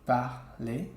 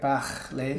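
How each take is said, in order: First: The R is soft and barely heard. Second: The R is strong and gargled. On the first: "like very subtle" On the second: "It doesn't have to be like parler"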